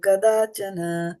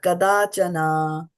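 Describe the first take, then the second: First: The final vowel is short and soft. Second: The final vowel is long and hard. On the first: The speaker calls it right. "It is soft" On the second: The speaker calls it wrong. "That is a hard"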